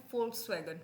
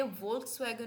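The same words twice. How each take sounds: First: "Volkswagen" begun with f, as folks-wagen; German-style "Volkswagen", opening on f; correct F sound. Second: "Volkswagen" begun with an English v; mispronounced "Volkswagen", v instead of f; wrong V sound. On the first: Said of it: "फ की sound करेगा". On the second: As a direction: say "Volkswagen" as volts-wagen, with v. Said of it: "ये Volkswagen नहीं है". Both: Shown as a demonstration.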